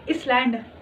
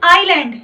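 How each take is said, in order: First: The word is said with an s sound. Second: The word is said without an s sound. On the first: The speaker calls it wrong. "कई लोग होते हैं क्या बोलते हो? इसलैंड।" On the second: The speaker calls it right. "इसलैंड नहीं, क्या है? आईलैंड। एस क्या है? साइलेंट।"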